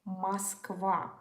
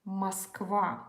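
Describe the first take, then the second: The two takes are said the same way.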